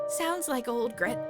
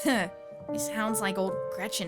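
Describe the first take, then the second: First: It is said in an ordinary, natural voice. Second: It is said in a put-on character voice.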